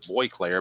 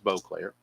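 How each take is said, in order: First: The first syllable sounds like 'boy'. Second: The first syllable sounds like 'bo'. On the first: The speaker calls it wrong. "For the longest time, I pronounced it Boyclair" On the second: The speaker calls it right. "So it is Beauclair"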